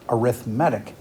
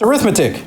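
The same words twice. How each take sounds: First: The stress is on the third syllable. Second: The stress is on the second syllable. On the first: It describes a type of sequence. The speaker calls it right. "the way we say it for this unit is arithmetic" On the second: It names the branch of math. The speaker calls it wrong. "I know some of you are like"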